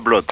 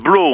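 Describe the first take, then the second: First: The final t is pronounced. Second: The final t is silent. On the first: The speaker calls it wrong. "c'est pas Blott" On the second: The speaker calls it right. "alors c'est Blot, hein, ... Le thé est muet"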